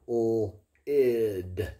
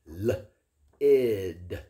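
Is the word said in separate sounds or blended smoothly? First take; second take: separate sounds; separate sounds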